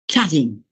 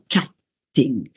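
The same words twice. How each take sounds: First: The t is short, like a single consonant. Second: The t is held long, like a double consonant. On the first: The speaker calls it right. "Chatting is pronounced like one T" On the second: The speaker calls it wrong. "not chatting"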